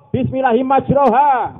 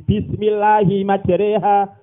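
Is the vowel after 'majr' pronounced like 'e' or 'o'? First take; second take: o; e. First: The vowel after 'majr' sounds like 'o'. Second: The vowel after 'majr' sounds like 'e'. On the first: The speaker calls it wrong. "kok imalah kok dibaca majroha" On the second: The speaker calls it right.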